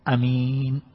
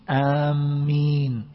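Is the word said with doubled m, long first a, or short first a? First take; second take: short a; doubled m. First: The first vowel is short, the m single. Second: The m sound is doubled and held. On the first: The speaker calls it right. "ويجوز القصر" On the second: The speaker calls it wrong. "ولا يجوز تشديد الميم"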